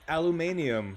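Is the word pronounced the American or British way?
British. It is said with a British pronunciation. "aluminium is what I would say if I was in the U K"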